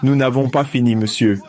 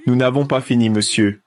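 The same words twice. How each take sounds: The two takes are said the same way.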